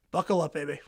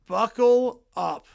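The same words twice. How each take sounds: First: Said in the usual way. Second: "Buckle up" drawn out slowly and louder, each word leaned on; slow emphatic hype. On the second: Real, not acted. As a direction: stretch "Buckle up" slow and loud like a warning. Hyping the upcoming division race.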